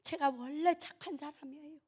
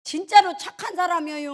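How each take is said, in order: First: Soft, higher-pitched little plea; gentle high protest; meek self-defence. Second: Louder, high-pitched protest; high, forceful plea of innocence; emphatic insistence. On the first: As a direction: say it small and softly, pleading innocence. Meek comic self-defence, first take. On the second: Insisting louder on second take. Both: Acted.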